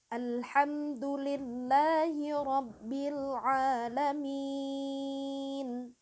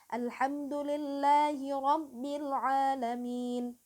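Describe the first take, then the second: First: The last long vowel is held four beats. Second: The last long vowel is held two beats.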